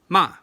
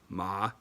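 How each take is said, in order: First: The pitch falls sharply from high. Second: The pitch dips low, then rises. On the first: "the dropping tone" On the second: "the low rising tone"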